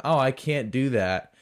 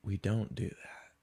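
First: Open, full-voiced excuse; mock inability. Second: Low, soft, dismissive put-down; dismissive refusal. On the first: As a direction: act out an apologetic refusal. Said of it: "It wasn't". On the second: Retold or imitated. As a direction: imitate a barista's quiet, final refusal. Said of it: "It was".

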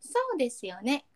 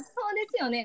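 First: Standard-Japanese そうですよね, at ordinary height; standard Japanese intonation. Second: Kansai-accented そうですよね, pitched up; Kansai intonation. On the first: Friend checking which tune is standard, standard intonation. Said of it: "これが標準語？". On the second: Friend checking which tune is Kansai, Kansai intonation. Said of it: "が関西弁？". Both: Shown as a demonstration.

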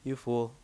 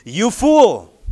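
First: Soft, low, limp you fool; flat mumble. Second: Loud, higher cry of you fool; exclaimed rebuke. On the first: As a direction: say fool flatly, without urgency. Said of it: "He doesn't say". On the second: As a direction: shout fool as God's rebuke. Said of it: "say it with me". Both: Shown as a demonstration.

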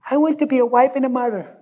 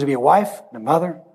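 First: High-pitched imitation of a little child; sweet five-year-old girl. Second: Said in the usual way. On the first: Five-year-old girl answering what she wants to be, in a sweet child voice. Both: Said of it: "In a sweet little redheaded five-year-old voice".

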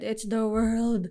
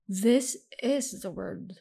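First: "world" drawn out with its l sounded; slow, emphatic "world" with a clear l; corrected pronunciation. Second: "world" coming out like "word"; slow "this is the world", the l lost in "world"; slipped pronunciation. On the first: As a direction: stretch "world" slowly so it isn't "word". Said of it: "Not the word, it's the world". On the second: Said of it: "Not the word". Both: Real, not acted.

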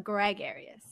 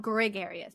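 First: "gregarious" with an open "greg" first syllable; corrected pronunciation. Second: "gregarious" with a short "grih" first syllable; wrong pronunciation. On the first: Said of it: "but gregarious". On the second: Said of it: "Not, not gregarious". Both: Shown as a demonstration.

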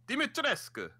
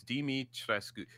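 First: High-pitched vampire accent on "Dimitrescu". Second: Said in the usual way. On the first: Shown as a demonstration. Cohost trying out the villain's name, high vampire accent. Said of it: "like, vampire accent". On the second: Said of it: "so it's like".

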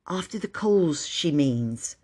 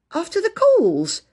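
First: Quiet little aside; explaining. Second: Slow, high-pitched incredulous echo; questioning repeat. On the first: Phyllis explains Bobby's question, quietly. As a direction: explain it quietly, dropping away. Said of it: "Phyllis explained". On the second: Child echoing the invitation, incredulous. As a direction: repeat it high and drawn out, in disbelief. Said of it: "repeated Phyllis". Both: A narrator's reading.

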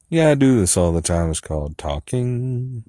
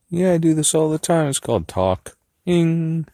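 First: Said in the usual way. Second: High silly voice. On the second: Pretend. Rehearsing a line in a high silly voice. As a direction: play with a squeaky voice.

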